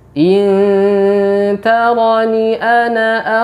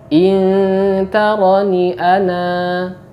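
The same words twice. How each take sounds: First: The final vowel of ana is kept short. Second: The final vowel of ana is held long. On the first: The reciter continues into the next words. "apabila kita sambung ... nun tidak boleh kita baca panjang" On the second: The reciter stops after this word. "Apabila kita berhenti, maka huruf alif ... tetap berfungsi"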